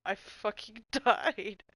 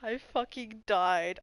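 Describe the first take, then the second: First: Drawn-out laugh through the words; cracking up as it comes out slowly; helpless slow laugh. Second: Said in the usual way. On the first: Real, not acted. Recalling a hilarious moment.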